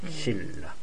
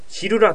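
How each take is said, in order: First: The middle is one long held L sound. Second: The middle has a separate L then an R. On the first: The speaker calls it right. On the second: The speaker calls it wrong.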